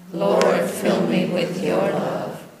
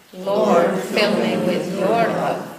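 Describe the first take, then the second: No difference in how they are said.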